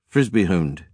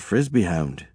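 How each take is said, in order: First: It is said with a thick Canadian accent. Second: It is said without a strong Canadian accent.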